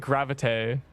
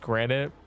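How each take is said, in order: First: The middle consonant is a 'v' sound. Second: The middle consonant is an 'n' sound. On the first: The speaker calls it wrong. "He'd say gravite" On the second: The speaker calls it right. "can't pronounce granite"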